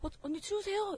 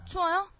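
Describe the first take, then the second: First: It sounds polite and friendly. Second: It sounds cheeky and insolent.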